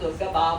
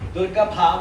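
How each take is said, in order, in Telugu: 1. bh ధ్వనిని శ్వాస లేకుండా పలుకుతారు. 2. bh ధ్వనిని ఒక శ్వాసతో పలుకుతారు. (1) "దుర్గ భామ అంటున్నారు" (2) "ఒత్తులు పలకాలి"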